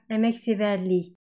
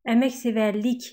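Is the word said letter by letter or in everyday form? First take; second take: everyday form; letter by letter. First: It is said in its everyday spoken form. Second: Every letter is pronounced as it is written. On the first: "но произносим как" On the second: "пишем"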